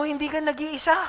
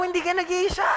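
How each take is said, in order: First: Said in the usual way. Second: Louder, higher. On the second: Shown as a demonstration. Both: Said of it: "Sabi sa katabi mo".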